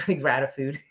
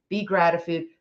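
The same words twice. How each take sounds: First: Laughing. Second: Said in the usual way. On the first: Shown as a demonstration.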